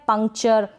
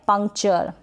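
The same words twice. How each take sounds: The two takes are said the same way.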